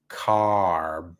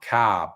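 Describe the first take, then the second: First: The final r is sounded, American style. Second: The final r is dropped, Australian style. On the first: The speaker calls it right. "You need to say car" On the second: The speaker calls it wrong. "not car ... Don't speak like an Australian"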